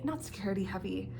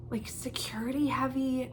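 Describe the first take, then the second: First: Said in the usual way. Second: Soft unvoiced whisper on security heavy; whispered aside. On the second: Real, not acted. Mid-sentence whispered aside.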